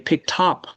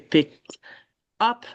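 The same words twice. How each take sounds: First: The final sound links into the next vowel. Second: The two words are said separately, not linked. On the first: The speaker calls it right. "you link it. You say picked up" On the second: The speaker calls it wrong. "you don't say picked up"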